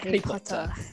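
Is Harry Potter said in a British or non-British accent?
British. It is said in a British accent. The speaker calls it right. "but Harry Potter"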